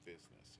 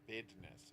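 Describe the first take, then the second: First: The middle consonant is a z sound. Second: The middle consonant is a d sound.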